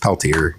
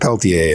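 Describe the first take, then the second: First: The R is clearly sounded. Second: The R is silent, French style. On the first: The speaker calls it right. "no, it's Peltier" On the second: The speaker calls it wrong. "like everybody else pronounces it"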